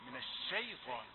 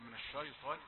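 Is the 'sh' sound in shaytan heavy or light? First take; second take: light; heavy. First: The sh sound is thin and light. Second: The sh sound is thick and heavy. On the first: The speaker calls it right. "الشين مرققة" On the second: The speaker calls it wrong. "لا تقل"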